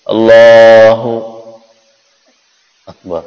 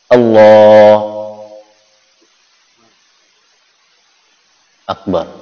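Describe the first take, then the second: First: There is a short pause between the two words. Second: There is a long pause between the two words. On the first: "Ataupun dikasih jedanya bentar, ... tidak boleh" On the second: "Jedanya lama ya. ... Lama jedanya"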